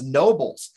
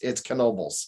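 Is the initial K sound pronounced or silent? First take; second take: silent; pronounced. First: The word starts without a K sound. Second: The word starts with a pronounced K sound. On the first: This is how most locals say the name. "They don't pronounce the K" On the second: This is how the owners say the name. "we do"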